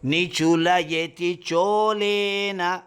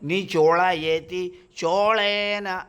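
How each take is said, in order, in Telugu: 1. ల ధ్వని సాధారణం, నాలుక పళ్ల వెనుక ఉంటుంది. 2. ల ధ్వని మూర్ధన్యం, నాలుక వెనక్కి మడిచి ఉంటుంది. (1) "లానే పలుకుతున్నాను నేను" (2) "చోళేన అని పెట్టారు. కానీ నేను అలా పలకట్టం లేదు"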